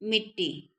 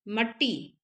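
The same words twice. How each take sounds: First: मिट्टी said with a clear short i; teacher voicing the correct form मिट्टी for students; correct form mittee. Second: मट्टी said with a short a, as the wrong spelling; teacher voicing the wrong form मट्टी for students; wrong form mattee. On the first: मिट्टी said carefully, the correct way. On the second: मट्टी said as the wrong rustic form. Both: Shown as a demonstration. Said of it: "मट्टी नहीं".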